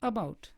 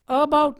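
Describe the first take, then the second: First: The first vowel is very short and quick. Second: The first vowel is full and clear. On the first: The speaker calls it right. "अ इतना छोटा है कि देखते देखते ही अगला sound आ जाता है" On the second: The speaker calls it wrong. "अबाउट नहीं"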